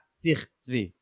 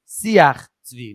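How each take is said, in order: First: The first word is said with one syllable. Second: The first word is said with two syllables. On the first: The speaker calls it wrong. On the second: The speaker calls it right. "the correct way to pronounce the sefer"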